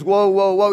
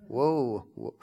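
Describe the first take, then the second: First: Each woe given full, solemn weight; mean every woe as in Revelations; weighty woe. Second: Soft, throwaway mock woe; trite woe. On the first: Preacher showing the real biblical woe, heavy and solemn. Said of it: "it meant woe, as in Revelations". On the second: Preacher mocking how people say woe now, offhand. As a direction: toss it off like a cliché. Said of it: "the trite thing that people say now". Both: Shown as a demonstration.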